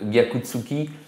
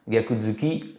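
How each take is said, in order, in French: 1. Un son 'ts' vient avant 'uki'. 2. Un son 'z' vient avant 'uki'. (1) "c'est un peu pénible à dire" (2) "ça passe beaucoup mieux"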